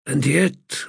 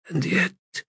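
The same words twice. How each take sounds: First: Firmer, rising with conviction; firmer wondering. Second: Softly, rising in wonder. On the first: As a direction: lean into the repeat. Repeated with more force. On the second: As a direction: let the first one hang in quiet wonder. God repeats, wondering. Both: Acted.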